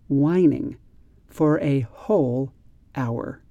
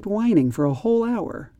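First: It is read much more slowly and carefully. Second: It is read at a quick conversational speed. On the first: "Now I'm going to read the sentences much more slowly" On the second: "when I read the sentences at that quick conversational speed"

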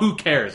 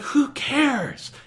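First: It is said in a dismissive, sarcastic way. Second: It is said as a sincere, earnest question. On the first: The speaker implies that it does not matter. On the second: The speaker genuinely asks who cares about it.

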